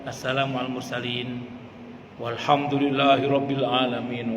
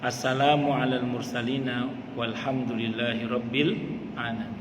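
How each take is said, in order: First: A pause, then a loud walhamdulillahi. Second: It flows on without a pause.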